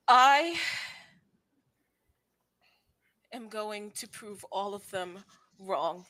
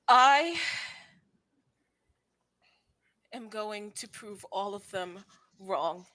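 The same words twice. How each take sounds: First: It is said with heartfelt conviction. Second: The same.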